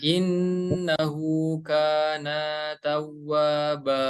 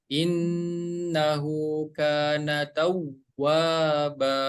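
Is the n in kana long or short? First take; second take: long; short. First: The n in kana is drawn out long. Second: The n in kana is kept short. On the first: The speaker calls it wrong. "nunnya jangan dibaca panjang" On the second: The speaker calls it right. "huruf nunnya dibaca pendek saja"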